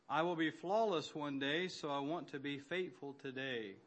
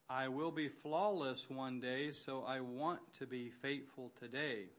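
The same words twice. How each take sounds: First: It is read at a normal pace. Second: It is read more slowly.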